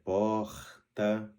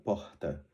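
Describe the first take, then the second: First: The R is a trilled, rolled sound. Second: The R is only a soft breathy sound. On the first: "O R rolado" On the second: "só suspirado"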